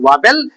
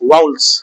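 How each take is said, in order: First: It is said as it is spelled, 'vah-vel'. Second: It is said with the standard 'vow-uls' sound. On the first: The speaker calls it wrong. "This is not वावेल" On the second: The speaker calls it right. "This is वाउल्स"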